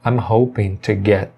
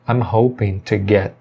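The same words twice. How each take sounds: First: Each word is said separately with g and t. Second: The same.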